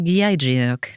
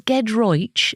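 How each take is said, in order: First: The name ends with an 'ok' sound. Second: The name ends with an 'oych' sound. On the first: This is how the name looks when written. The speaker calls it wrong. "but it looks like Giedriok" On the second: This is the name's real pronunciation. The speaker calls it right. "It's Gedroich"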